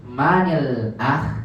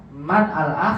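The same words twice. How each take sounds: First: MANIL AKH, man joined to al by an i, slowly; linked with kasrah. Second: MAN AL-AKH unjoined, man ending on n; separated words. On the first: Teacher answering how it is read, slow linked MANIL AKH. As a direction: draw out MA-NIL, then AKH. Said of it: "Gimana bacanya?". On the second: Teacher posing the example, MAN AL-AKH as separate words. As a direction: keep MAN apart from AL-AKH. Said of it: "gimana bacanya?". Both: Shown as a demonstration.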